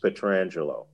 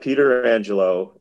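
First: The name begins with a run-together 'Petr' sound. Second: The name begins with a separate 'Peter' sound. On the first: The speaker calls it right. "he will tell you it's Alex Petrangelo" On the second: The speaker calls it wrong. "It's not Peter Angelo"

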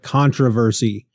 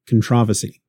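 First: It is said in an American way. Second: It is said in a British way.

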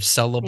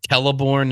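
First: The name begins with a soft S sound. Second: The name begins with a hard K sound. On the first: The speaker calls it wrong. "instead of" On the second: The speaker calls it right. "I know how to say the C's right"

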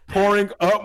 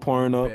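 First: The title is said slowly and clearly. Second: The title is said quickly and unclearly. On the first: The speaker calls it right. "There we go" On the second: The speaker calls it wrong. "You need to enunciate when you say the song"

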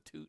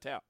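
First: The vowel sounds like oo in boot. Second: The vowel sounds like ow in cow. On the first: The speaker calls it right. "it's a toot, not a tout" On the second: The speaker calls it wrong. "not a tout"

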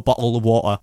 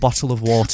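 First: The t sounds are dropped, not clearly pronounced. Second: The t sounds are clearly and fully pronounced. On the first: "I don't like skipping them. I can't go" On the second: "I have to go"

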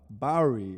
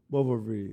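First: The middle consonant is a w sound. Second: The middle consonant is a v sound. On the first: The speaker calls it right. "Bowery, you couldn't say it" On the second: The speaker calls it wrong. "he was saying Bovary"

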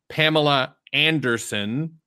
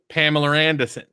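First: The name is said in a general accent. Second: The name is said in a Maine accent, R moved. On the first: "most people in the world would say" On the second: "people in Maine would go ... So they just take the R and move it"

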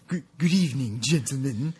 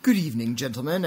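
First: It is read in a spooky, put-on voice. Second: It is read in a normal voice.

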